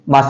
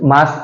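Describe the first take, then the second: First: The vowel is said half, short and reduced. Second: The vowel is said fully and long. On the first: The speaker calls it right. "माँ आधा सा है ना" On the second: The speaker calls it wrong. "माँ ऐसे नहीं कहते भाई"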